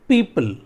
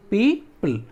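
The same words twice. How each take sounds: First: Said in the usual way. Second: पीपल as two separate beats, पी and पल; split into syllables. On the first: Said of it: "पीपल हम लोग कहते हैं ना". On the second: Shown as a demonstration. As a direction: pause between पी and पल in पीपल. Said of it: "दो भागों में उसको बांटते हैं".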